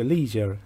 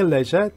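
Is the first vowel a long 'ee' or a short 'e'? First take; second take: long ee; short e. First: The first vowel is a long 'ee' sound. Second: The first vowel is a short 'e' sound.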